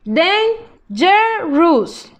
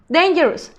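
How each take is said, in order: First: Dangerous stretched out slowly, each syllable separate; slow modelling voice. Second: Said in the usual way. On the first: Shown as a demonstration. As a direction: spell out dangerous slowly for the class. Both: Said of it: "teacher models word then slows".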